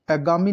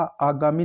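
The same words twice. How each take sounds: First: आगामी with a short first vowel; mispronounced आगामी. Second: Said in the usual way. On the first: Shown as a demonstration. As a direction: say आगामी as "a-gaami". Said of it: "आगामी नहीं होता". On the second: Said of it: "आगामी लिखा जाएगा".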